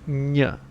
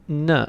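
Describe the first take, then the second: First: The N sound is strongly overpronounced. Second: The N sound is said plainly. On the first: "trying to put as much emphasis as you can on it" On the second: "instead of n"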